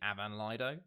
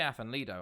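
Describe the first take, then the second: First: The first word is said with a 'v' sound. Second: The first word is said with an 'f' sound. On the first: The speaker calls it right. "it's actually Avan Lido" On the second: The speaker calls it wrong. "I say Afan Lido"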